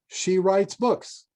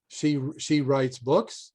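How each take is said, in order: First: The voice falls at the end. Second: The voice rises at the end.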